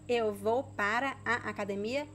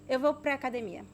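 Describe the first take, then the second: First: 'Para a' is said in full, syllable by syllable. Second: 'Para a' is linked and shortened to 'pra'.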